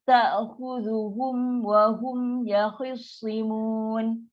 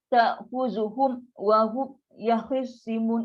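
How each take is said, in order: First: The words flow on clearly without a break. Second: The sound is chopped off between the words. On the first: The speaker calls it right. "Dia mesti baca" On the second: The speaker calls it wrong. "punya potong-potong kan? Ah itu tak boleh. Dia dah putus terus bunyi tu"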